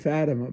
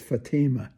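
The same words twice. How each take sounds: First: Fatima is said the standard way. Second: Fatima is said the local St. Louis way. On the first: It names the saint's apparition. The speaker calls it right. "they say Our Lady of Fatima" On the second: It names the neighborhood street. The speaker calls it wrong. "the name of the street is Fatima"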